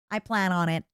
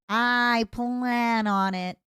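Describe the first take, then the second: First: Said in the usual way. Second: I plan on it, drawn out very slowly; slow menacing. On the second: Acted. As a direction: savour each word of I plan on it.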